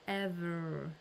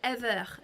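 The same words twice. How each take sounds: First: It is said with an American-sounding accent. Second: It is said with a French accent.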